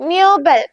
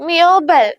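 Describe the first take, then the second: No difference in how they are said.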